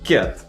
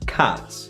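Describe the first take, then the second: First: The vowel is a closer e sound. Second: The vowel is an open a sound. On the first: The speaker calls it wrong. "sound something like ket" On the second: The speaker calls it right. "open your mouth more"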